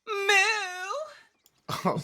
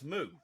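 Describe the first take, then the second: First: It is an odd, happy-sounding cow moo. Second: It is a normal, ordinary cow moo.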